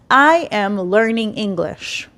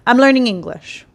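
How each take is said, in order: First: The first two words are said separately. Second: The first two words are contracted together. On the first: This is the textbook form. "Instead of saying" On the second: This sounds more like a native speaker. "It's just faster"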